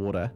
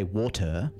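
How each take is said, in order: First: The middle t is a soft d-like flap. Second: The middle t is a crisp t sound. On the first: This is quick casual speech. "if you were just talking really quickly to someone in the street" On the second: This is careful speech. "when you're enunciating on the radio, you'll say water"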